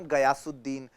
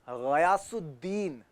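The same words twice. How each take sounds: First: गयासुद्दीन with a hard Hindi g; गयासुद्दीन said with plain ग; wrong गयासुद्दीन. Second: गयासुद्दीन slow, with a throaty gh; गयासुद्दीन said with Urdu ग़. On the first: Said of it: "it's not गयासुद्दीन". (Hindi ग से गयासुद्दीन) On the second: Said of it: "it's गयासुद्दीन". (Urdu ग़ से ग़यासुद्दीन) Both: Shown as a demonstration.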